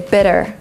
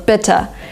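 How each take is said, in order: First: It has an American accent with a D-like flap. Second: It has a British accent with a clear T.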